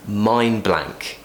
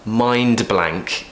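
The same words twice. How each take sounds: First: The d at the end of mind is dropped. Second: The d at the end of mind is pronounced. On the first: "we will actually say mind blank. Imagine you're saying the word mine" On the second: "quite a lot of consonant sounds there"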